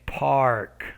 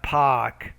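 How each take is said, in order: First: The R sound in the middle is pronounced. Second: The R sound in the middle is dropped. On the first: The speaker calls it right. "but it's park" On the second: The speaker calls it wrong. "it's not park"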